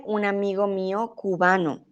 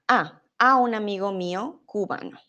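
First: Said in the usual way. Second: "A" hit and repeated first; stress on the preposition. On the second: Shown as a demonstration. Teacher correcting Chris, stressing the missing "a". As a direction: lean on "a" before "un amigo mío cubano". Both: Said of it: "la preposición".

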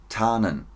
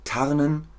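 First: TARNEN as "taanen", long a, no R; silent r in TARNEN. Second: TARNEN with audible throaty R, higher pitch; sounded r in TARNEN. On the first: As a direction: drop the R in tarnen, falling tone. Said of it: "Stummes R". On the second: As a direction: articulate the R in Tarnen, left hanging. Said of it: "Ich höre das R". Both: Shown as a demonstration.

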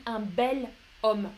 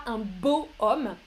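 First: 'bel homme' linked smoothly as one sound, stress on 'bel'; correct form. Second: 'beau' then a small break before 'homme', shown as the odd form; wrong form. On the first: Teacher to students, showing the right form, calm and clear. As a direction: say 'un bel homme' with 'bel' as bèl, the L running straight into 'homme'. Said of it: "pour que ça sonne mieux". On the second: Teacher to students, showing the wrong form, calm and clear. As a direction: say 'un beau homme' with 'beau' as bo, no link into 'homme'. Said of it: "c'est bizarre, on dit un bel homme".

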